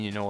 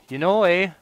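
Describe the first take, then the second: First: Said in the usual way. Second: Hammed-up Canadian accent, high and loud; mock his own Canadian accent with a big "eh". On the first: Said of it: "I keep saying". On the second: Shown as a demonstration. Gamer teasing his habit, in a Canadian accent. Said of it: "doing that damn Canadian accent".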